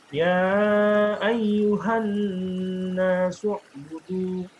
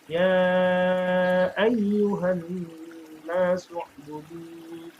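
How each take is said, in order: No difference in how they are said.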